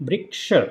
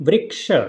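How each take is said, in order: The two takes are said the same way.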